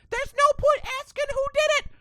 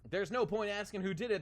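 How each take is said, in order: First: It is said in a Blackbeard voice impression. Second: It is said in the speaker's plain voice.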